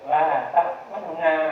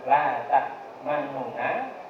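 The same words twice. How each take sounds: First: The vowel after the nun is cut short. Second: The vowel after the nun is said in full. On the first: "Kalau dikurangi dua per tiga" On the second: "Kalau la ta'manuna ini utuh"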